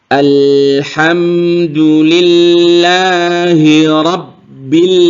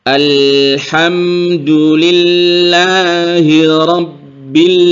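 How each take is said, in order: Both takes have the same delivery.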